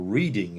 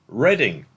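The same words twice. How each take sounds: First: "Reading" said as REED-ing; different pronunciation. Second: "Reading" said slowly as RED-ing; town-name pronunciation. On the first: Quizmaster explains the dyslexia joke, "Reading" pronounced REED-ing. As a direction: say "Reading" like reading a book. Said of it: "if you read it a slightly different way". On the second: Quizmaster reveals the funny city answer, "Reading" pronounced RED-ing. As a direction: say "Reading" like "redding", drawn out. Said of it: "read it a slightly different way". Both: Shown as a demonstration.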